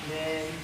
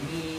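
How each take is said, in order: First: The vowel sounds like an open 'e'. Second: The vowel sounds like a clear 'i'. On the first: The speaker calls it wrong. "Men, men, bukan min, itu men" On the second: The speaker calls it right. "bukan min"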